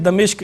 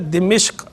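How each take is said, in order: First: The first vowel is a, the second i. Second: The first and second vowels are both i. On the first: The speaker calls it wrong. "गलत तौर पे यूँ कह देते हैं दमिश्क, यानी दाल पे ज़बर पढ़ते हैं" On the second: The speaker calls it right. "मीम के नीचे ज़ेर के साथ बनेगा दिमिश्क"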